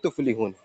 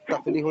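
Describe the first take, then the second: First: The first syllable has the vowel 'u'. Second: The first syllable has the vowel 'a'. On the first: The speaker calls it right. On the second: The speaker calls it wrong. "तफलीहुन नहीं है"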